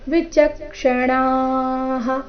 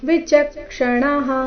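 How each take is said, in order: First: The vowel before the final breath is long. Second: The vowel before the final breath is short. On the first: The speaker calls it right. "ಅಣಾದೀರ್ಘ ನಂತರ ವಿಸರ್ಗದ ಉಚ್ಚಾರಣೆಯನ್ನ ಹೇಳಬೇಕು" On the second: The speaker calls it wrong. "ಇಲ್ಲಿ ವಿಚಕ್ಷಣಃ ಈ ರೀತಿ ಇಲ್ಲ"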